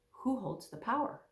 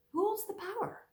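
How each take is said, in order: First: Said in the usual way. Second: Same question lifted much higher; higher repeat. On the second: Real, not acted. Preacher repeats the question to listeners, higher. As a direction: ask it again, up high, searching.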